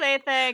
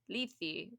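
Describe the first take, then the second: First: The vowels use the ancient Greek sound. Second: The vowels use the modern Greek sound. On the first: "I like the ancient Greek pronunciation better" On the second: "the modern Greek pronunciation"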